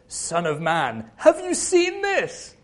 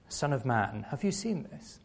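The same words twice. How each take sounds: First: It is said in an excited, amazed tone. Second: It is said in a solemn, serious tone.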